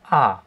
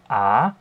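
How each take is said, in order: First: The pitch falls sharply from high to low. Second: The pitch rises from mid to high. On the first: "fallend, da sind wir beim vierten Ton" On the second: "Beim zweiten Ton, das ist der steigende Ton"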